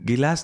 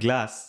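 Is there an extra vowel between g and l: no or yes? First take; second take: yes; no. First: A vowel is inserted between g and l. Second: The g and l are joined without a vowel. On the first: This is the local Assamese form of the word. "গিলাচটো আমাৰ শব্দ" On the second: This is the English form of the word. "আমি ইংলিছটোলৈ গুচি যাওঁ"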